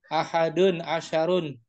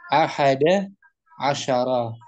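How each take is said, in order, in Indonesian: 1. Setiap kata berakhir dengan bunyi un. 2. Setiap kata berakhir dengan vokal a pendek. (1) "Boleh nggak dibaca ahadu?" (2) "Tadi itu fathah"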